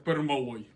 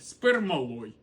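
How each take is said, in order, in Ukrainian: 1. Слово починається зі звука 'p'. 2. Слово починається з додаткового звука 's'. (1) "Метал називається пермалой" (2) "Як його тільки не називали"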